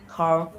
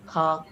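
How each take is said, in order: First: Car with the R fully sounded; American R. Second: Car as "cah", R silent; British R-less ending. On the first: Student contrasting accents, car with R. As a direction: finish car on a clear R. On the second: Student contrasting accents, car without R. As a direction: drop the R from car. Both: Shown as a demonstration. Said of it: "these are the main differences".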